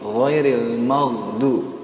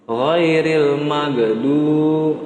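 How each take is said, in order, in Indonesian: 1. Konsonannya dilepas dengan halus, tanpa memantul. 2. Konsonannya dilepas dengan gema memantul. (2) "itu jangan sampai dipantulin"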